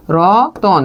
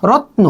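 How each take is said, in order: First: রতন said as "ro-ton" with an o between t and n; inserted middle vowel. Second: রত্ন with t and n said together; consonant cluster. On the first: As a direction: open the cluster: রতন. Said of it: "রতন যখন আপনি বলবেন তখন মাঝখানে একটা অ". (রতন মাঝে অ যোগ করে) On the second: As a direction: keep রত্ন tight, tn as one cluster. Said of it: "তয়ের সাথে ন". (রত্ন যুক্তবর্ণে) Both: Shown as a demonstration.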